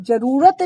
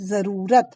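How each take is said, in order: First: "जरूरत" said with plain j as jarurat; wrong j sound. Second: "जरूरत" said as zarurat with z, slow; correct z sound. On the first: Teacher marks the wrong word for students, plain j. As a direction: say "जरूरत" with a hard j. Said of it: "जरूरत शब्द गलत है". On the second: Teacher gives students the right word, slow z. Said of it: "शब्द है जरूरत". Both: Shown as a demonstration.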